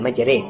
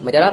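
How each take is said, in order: First: The word ends in a middle 'e' vowel. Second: The word ends in an open 'a' vowel. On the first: The speaker calls it right. "उसके लिए खास अदायगी है, वो है मजरे" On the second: The speaker calls it wrong. "न ही मजरा पढ़ा जाएगा"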